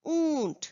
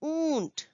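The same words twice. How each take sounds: First: ऊंट said with a long nasal ऊ, a little higher; teacher saying ऊंट for children to copy; clear model word. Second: Teacher models ऊंट gently for the class; clear model word. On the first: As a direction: model ऊंट for the class to repeat. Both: Shown as a demonstration. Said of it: "उच्चारण करिए बच्चों".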